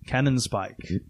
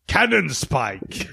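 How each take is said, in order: First: It is said in a normal voice. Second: It is said in a put-on character voice.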